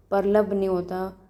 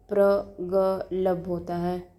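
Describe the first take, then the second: First: Said in the usual way. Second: प्रगलभ drawn out slowly, each syllable separate; correct pronunciation. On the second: Shown as a demonstration. Teacher correcting a student's spelling, slow careful pronunciation.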